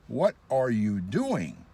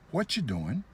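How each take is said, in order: First: Each word is said separately and deliberately. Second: The words run together quickly and casually.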